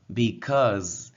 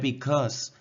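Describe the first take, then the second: First: The word ends with a buzzing z sound. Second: The word ends with a hissing s sound. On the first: The speaker calls it right. "sino because. Zzz, ese sonido" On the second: The speaker calls it wrong. "Because no se pronuncia con S ... No es because"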